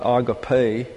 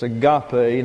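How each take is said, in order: First: The stress is not on the middle syllable. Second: The stress is on the middle syllable. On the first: The speaker calls it wrong. "not agape. I've heard that before" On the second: The speaker calls it right. "The accent is on the middle syllable here"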